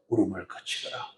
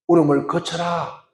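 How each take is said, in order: First: Much lower and softer, tender consoling; hushed tender comfort, low and soft; warm comfort. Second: Said in the usual way. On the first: Shown as a demonstration. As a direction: say it gently to a weeping mother, not shouting. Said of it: "아주 따뜻한 위로의 말로". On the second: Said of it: "고함 지르는 것이 아니라 아주 따뜻한 위로의 말로".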